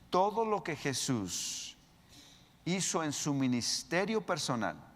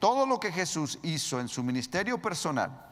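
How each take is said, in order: First: It is spoken at a slower, deliberate pace. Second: It is spoken at a normal, quicker pace.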